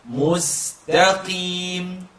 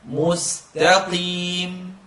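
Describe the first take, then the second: No difference in how they are said.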